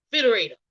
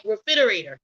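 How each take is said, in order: First: Refrigerator with the opening re dropped, frigerator; Southern refrigerator. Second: Refrigerator said in full, re-frig-er-a-tor with the opening re; the full standard refrigerator, first syllable clear. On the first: Showing how Southerners say it: frigerator, no re. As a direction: clip the re off refrigerator, Southern style. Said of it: "In the South, we'll say". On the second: Explaining how others say it: full refrigerator. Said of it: "some people say". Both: Shown as a demonstration.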